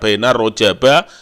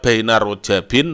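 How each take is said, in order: First: The word ends with an -a sound. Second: The word ends with an -in sound. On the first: The noun is treated as not fully declinable. "kalau ghairu munsorib dibaca baina rojaba" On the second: The noun is treated as fully declinable. "Kalau munsorib dibaca baina rojabin"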